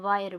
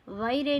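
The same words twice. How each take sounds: First: Said in the usual way. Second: वायरे with the final e sounded, "vai-ray"; wrong reading. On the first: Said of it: "वायर पढ़ते हैं". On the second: Shown as a demonstration. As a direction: voice the silent e at the end of वायरे. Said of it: "नहीं पढ़ते हैं". (वायरे, आख़िर में "रे" बोलकर)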